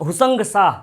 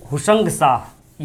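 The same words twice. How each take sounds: First: Said in the usual way. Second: हुसंग शाह spelled out slowly for notes; drawn-out हुसंग शाह, word by word; slow dictation. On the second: Shown as a demonstration. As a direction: say हुसंग शाह slowly so students can write it.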